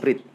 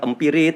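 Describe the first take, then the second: First: The m and r have no vowel between them. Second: An extra i vowel separates m and r. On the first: The speaker calls it right. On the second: The speaker calls it wrong.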